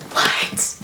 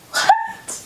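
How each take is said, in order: First: Voiceless, breath-only "What?"; acted hushed disbelief; stunned whisper. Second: Tiny, very high "What?"; acted high-pitched shock; shocked squeak. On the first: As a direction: whisper it in mock shock. [name]'s stunned reaction, first take. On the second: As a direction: squeak it in mock disbelief. [name]'s stunned reaction, second take.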